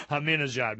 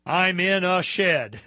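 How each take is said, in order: First: Said in the usual way. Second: "I'm in a shed" said slow and loud, like the name; slow mnemonic for Ahmadinejad. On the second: Shown as a demonstration. Host teaching how to remember the name, slow and loud. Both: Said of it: "no talk show host has a good way of remembering his name".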